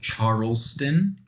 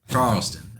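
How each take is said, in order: First: The R, T and L sounds are clearly pronounced. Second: The R, T and L sounds blur together. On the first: "I guess properly like Charleston" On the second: "you always say it that way"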